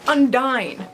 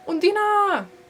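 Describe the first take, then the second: First: The name is said with a North American pronunciation. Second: The name is said with a German-like pronunciation. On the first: The speaker calls it wrong. "I'm just aggressively North American" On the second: The speaker calls it right. "that's kind of how it's pronounced"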